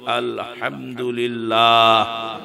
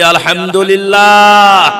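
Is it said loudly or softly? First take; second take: softly; loudly. First: It is said at normal, softer volume. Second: It is said louder, with more force.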